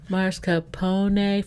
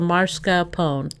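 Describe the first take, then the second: First: The word is said with four syllables. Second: The word is said with three syllables. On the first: "Four syllables" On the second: "Three syllables"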